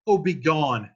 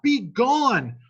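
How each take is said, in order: First: Said in the usual way. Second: Be gone cried much higher and louder; desperate cry. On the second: Acted. Romeo driving Paris away, desperate high cry. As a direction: fling be gone out high and loud. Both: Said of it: "And Romeo says".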